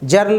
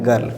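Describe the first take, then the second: First: It starts with a J sound. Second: It starts with a hard G sound. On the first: The speaker calls it wrong. "जर्ल नहीं पढ़ेंगे" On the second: The speaker calls it right. "इसको क्या पढ़ेंगे गर्ल"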